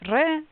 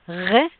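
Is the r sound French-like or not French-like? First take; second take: not French-like; French-like. First: The r does not sound like a French r. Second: The r sounds close to a French r. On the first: This is how an older generation says it. "my parents they pronounce it as re" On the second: This is how Israelis say it. "Israeli pronunciation is making it something like a re, quite close to French"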